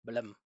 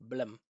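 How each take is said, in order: No difference in how they are said.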